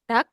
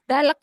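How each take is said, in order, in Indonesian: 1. Hanya bunyi k yang mengakhiri kata. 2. Ada bunyi l sebelum k. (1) "Dak aja" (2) "Kadang anak baca dalek gitu, bukan gitu"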